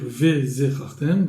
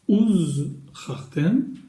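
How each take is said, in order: First: The word begins with a 've' sound. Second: The word begins with an 'oo' sound. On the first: The speaker calls it wrong. "on ne pourra pas dire ve zechartem" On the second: The speaker calls it right. "donc on dira encore une fois uz chartem"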